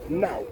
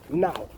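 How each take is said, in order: First: It is said in a Cockney accent. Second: It is said in a Cockney accent.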